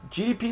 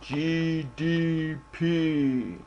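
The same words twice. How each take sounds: First: It is said plainly, in a normal voice. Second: It is said dramatically, sounding powerful.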